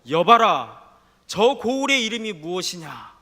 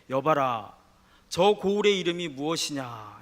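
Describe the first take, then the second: First: It is said in an angry voice. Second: It is said in a calm, curious voice. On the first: The asker is annoyed at getting no answer. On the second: The asker is simply curious.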